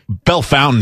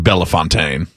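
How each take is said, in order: First: It is said with an English-style local pronunciation. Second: It is said with a French-style pronunciation. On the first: This is how the local town is called. The speaker calls it wrong. "Bellefontaine should be" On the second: This is how the original name is pronounced. The speaker calls it right. "should be Bellefontaine"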